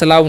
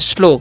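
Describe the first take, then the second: First: The vowel sounds like 'ow' in cow. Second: The vowel sounds like 'oh' in go. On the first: The speaker calls it wrong. "स्लाव नहीं" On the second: The speaker calls it right. "इसे हम पढ़ते हैं स्लो"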